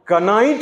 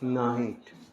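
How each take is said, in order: First: The word begins with a sounded k. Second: The word begins with an n sound. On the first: The speaker calls it wrong. "कनाइट नहीं" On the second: The speaker calls it right. "के को silent"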